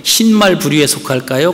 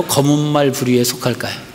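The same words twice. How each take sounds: First: 흰 stressed, question rising; questioning rise. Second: 말 weighted, tune falling; falling question. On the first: Pastor repeating the zebra question, rising on 흰. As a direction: lift 흰 and rise. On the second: Pastor asking the contrasting option, falling tune. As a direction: drop the close on 검은 말 부류에. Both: Shown as a demonstration. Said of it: "얼룩말 있잖아요".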